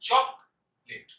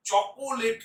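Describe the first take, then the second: First: চকলেট in two syllables, chok-let, no middle o; crisp two-beat চকলেট; correct pronunciation. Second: চকোলেট in three syllables with a stretched middle o; slow cho-ko-let for চকোলেট; wrong pronunciation. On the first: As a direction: say চকলেট with the middle vowel dropped. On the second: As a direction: draw out the extra o in চকোলেট. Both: Shown as a demonstration. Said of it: "চকোলেট নয়".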